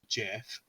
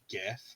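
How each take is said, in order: First: The word begins with a soft j sound. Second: The word begins with a hard g sound. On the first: The speaker calls it right. "pronounced Jiff" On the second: The speaker calls it wrong. "not GIF"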